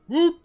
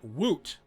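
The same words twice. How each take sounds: First: The word is said loudly, with excited energy. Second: The word is said flatly, without energy. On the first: The speaker calls it right. "You have to say it that way" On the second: The speaker calls it wrong. "I didn't do it right"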